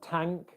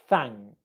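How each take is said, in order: First: The word begins with a t sound. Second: The word begins with a soft th sound. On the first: The speaker calls it wrong. "it's going to sound more like a t or a d. So we don't want tank" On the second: The speaker calls it right. "your tongue coming through your teeth... It's thank"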